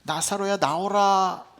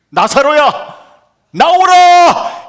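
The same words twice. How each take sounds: First: The call is said quietly and timidly. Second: The call is said loudly and boldly.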